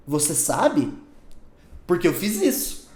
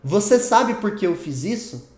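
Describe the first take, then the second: First: "Você sabe" falling, a pause, then "por que eu fiz isso?"; split with a pause. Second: "Você sabe por que eu fiz isso?" as a single run, slow, no break; one joined question. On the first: Teacher showing the wrong reading, with a clear pause after "Você sabe". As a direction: break it after "Você sabe" so it sounds like a reason. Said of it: "O que eu tô querendo dizer é". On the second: Teacher showing students the joined question, said in one flowing run. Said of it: "Se você fala assim, ó". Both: Shown as a demonstration.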